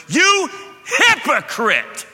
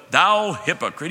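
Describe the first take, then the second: First: Much higher, louder, slow stern You hypocrite with YOU hit hard; forceful rebuke. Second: Mock old-English Jesus. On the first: Retold or imitated. Jesus confronting the synagogue ruler, loud slow rebuke. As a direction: hurl You hypocrite like a blunt accusation. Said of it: "He went". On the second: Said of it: "Jesus didn't go".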